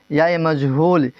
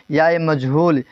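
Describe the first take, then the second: No difference in how they are said.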